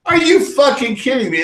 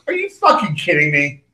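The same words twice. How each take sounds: First: Disbelief, pitched much higher; imitating his own outrage, going higher; incredulous. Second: Said in the usual way. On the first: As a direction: repeat it in mock outrage. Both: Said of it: "I was like".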